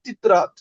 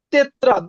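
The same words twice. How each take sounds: First: তিত্রাত with an "i" in the first syllable, tit-rat; corrected pronunciation. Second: তেত্রাত with an "e" vowel, tet-rat; pronounced as spelt. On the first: Teacher correcting the spelt form, তিত্রাত said tit-rat. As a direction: turn the first vowel of তিত্রাত to i. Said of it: "এটা উচ্চারণ হবে". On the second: Teacher reading the written word, তেত্রাত said tet-rat. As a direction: open the first vowel of তেত্রাত to e, not i. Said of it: "but এটা উচ্চারণ হবে তিত্রাত". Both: Shown as a demonstration.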